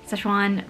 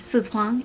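First: The name has an Americanized English pronunciation. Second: The name has a Chinese-style pronunciation. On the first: "that Americanized way" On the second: "if you guys are Chinese"

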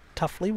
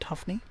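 First: The second syllable begins with an L sound. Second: The second syllable begins with an N sound. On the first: The speaker calls it right. "Tuffley rather than Tuffney" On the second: The speaker calls it wrong. "I was mispronouncing that"

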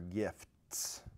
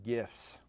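First: The word ends with a clear T sound. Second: The word ends without a T sound. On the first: The speaker calls it right. "That's with a T" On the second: The speaker calls it wrong. "I didn't pronounce the T"

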